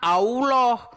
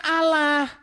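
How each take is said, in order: First: The word is said with rounded 'au' and 'oh' vowels. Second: The word is said with plain open 'a' vowels. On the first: "Kalau Allah tulisannya kan A U O L O H" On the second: "Ini kan bacanya"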